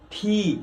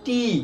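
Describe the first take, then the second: First: The t sound has a puff of air. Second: The t sound is plain, without a puff. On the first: The speaker calls it right. "এর সঠিক উচ্চারণ" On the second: The speaker calls it wrong. "আমরা উচ্চারণ করি"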